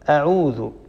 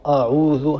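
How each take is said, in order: First: The opening glottal stop is light and thin. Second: The opening glottal stop is heavy and velarized. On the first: The speaker calls it right. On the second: The speaker calls it wrong.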